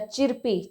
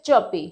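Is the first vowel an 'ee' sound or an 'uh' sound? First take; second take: ee; uh. First: The first vowel is an 'ee' sound with R. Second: The first vowel is an 'uh' sound, R silent. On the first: The speaker calls it wrong. "आप इसको चिरपी मत पढ़िएगा" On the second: The speaker calls it right. "यहाँ पे आर silent है और ई की sound जाएगी अ में"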